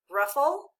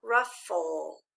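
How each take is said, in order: First: Said in the usual way. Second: "Ruffle" slowly in two parts, ruff-full; low, measured "Ruffle", each syllable distinct; syllable-by-syllable reading. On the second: Shown as a demonstration. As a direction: sound out "Ruffle" low with the end held. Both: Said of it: "Read it together with me".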